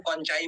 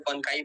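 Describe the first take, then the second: First: "कॉन्चाई" said with a ch sound; variant pronunciation. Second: "कॉन्काई" said with a hard k; variant pronunciation. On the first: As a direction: say "कॉन्चाई" with ch as in chai. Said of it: "कुछ लोग कॉन्चाई बोलते हैं". ("कॉन्चाई" में च की ध्वनि) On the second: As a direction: say "कॉन्काई" with k, as in kite. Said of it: "कुछ लोग कॉन्काई बोलते हैं". ("कॉन्काई" में क की ध्वनि) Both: Shown as a demonstration.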